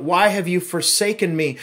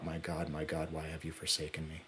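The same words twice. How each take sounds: First: Louder, anguished cry of the quote. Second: Softer, faster hushed quote. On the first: Pastor voicing Jesus' cry from the cross, loud. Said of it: "His voice called out". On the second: Pastor quoting Jesus' last words to the church, hushed. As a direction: let the cry sink to a hush. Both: Retold or imitated.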